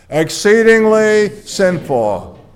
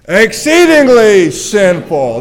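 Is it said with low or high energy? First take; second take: low; high. First: It is said with ordinary, lower energy. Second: It is said with more energy.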